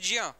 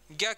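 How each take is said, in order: First: It is read literally from its letters. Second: It is said in its usual spoken form. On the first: This is how the letters would be read by rule. "कायदे से हमको पढ़ना चाहिए ज्ञ" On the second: This is how it is actually pronounced. "इसका उच्चारण हम कैसे करते हैं? ज्ञ की तरह।"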